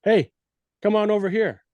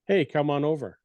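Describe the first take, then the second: First: Pitched up high and pushy; aggressive call. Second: Nonchalant. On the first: Elk hunter demonstrating an aggressive call to a listener, pitched up and pushy. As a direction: demand they come over, not a casual invite. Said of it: "one's a little more aggressive". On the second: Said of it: "one's nonchalant". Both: Shown as a demonstration.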